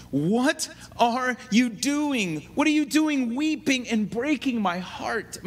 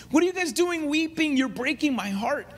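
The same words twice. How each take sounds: First: Said in the usual way. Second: A hint of a distraught apostle begging friends to stop weeping; pleading, heartbroken Paul. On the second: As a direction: pitch jumps high on the first question, voice straining with hurt. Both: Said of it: "look at his emotional stress".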